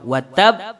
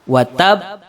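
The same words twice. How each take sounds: Both takes have the same delivery.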